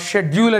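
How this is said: The word begins with a 'sh' sound. This is the British way of saying it. "షెడ్యూల్ అని British వాళ్ళు అనగా England వాళ్ళు అంటే"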